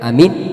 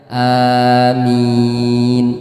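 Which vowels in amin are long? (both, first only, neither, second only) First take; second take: neither; both. First: Both the first and second vowels are short. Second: Both the first and second vowels are long. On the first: Simply safe. "a-nya pendek, minnya pendek juga" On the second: Answer our prayer. "a dan minnya sama-sama panjang"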